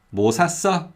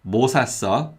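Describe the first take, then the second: First: Weight and high pitch on 샀어; stress on the verb. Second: Weight on 뭐, not the verb; stress on 뭐. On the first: Teacher repeating the recap question, stress on 샀어. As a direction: make 샀어 the stressed word, not 뭐. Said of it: "if you put stress on the verb". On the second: Teacher repeating the recap question, stress on 뭐. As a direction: stress 뭐 and let 샀어 follow lightly. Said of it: "if you put stress on 뭐". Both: Shown as a demonstration.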